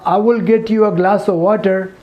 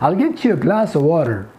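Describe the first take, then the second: First: Each word is said fully and separately. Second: The words are contracted and linked together. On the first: The speaker calls it wrong. "nobody will understand you in America" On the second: The speaker calls it right. "But if you say"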